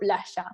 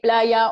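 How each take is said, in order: First: The middle consonant sounds like sh. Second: The middle consonant sounds like a y. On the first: The speaker is from Argentina. "in Argentina, we say sh" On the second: The speaker is from elsewhere in South America. "the rest of South America would say"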